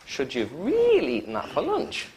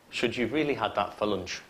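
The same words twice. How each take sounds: First: High questioning swoop, rising again on "lunch"; question intonation. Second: Low request falling on "lunch"; polite request. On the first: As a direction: swing up high and lift "lunch". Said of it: "One's a question". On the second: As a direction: keep "lunch" low, not questioning. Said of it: "They're polite requests". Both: Shown as a demonstration.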